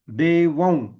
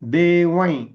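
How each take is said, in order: First: The word ends in a nasalized v sound. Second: The word ends in a nasalized y sound. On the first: The next word begins with v. "जर व पासून सुरू होणारा असेल तर" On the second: The next word begins with y. "पहिलं अक्षर य असेल तर"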